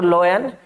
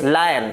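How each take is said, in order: First: The first vowel sounds like 'oy'. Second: The first vowel sounds like 'eye'. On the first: The speaker calls it wrong. "It's not लोयन" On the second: The speaker calls it right. "It's लायन"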